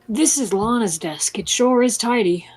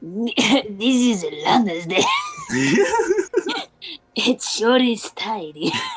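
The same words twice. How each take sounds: First: It is said in a normal accent. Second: It is said in a Spanish accent.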